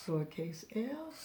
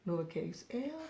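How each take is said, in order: Both takes have the same delivery.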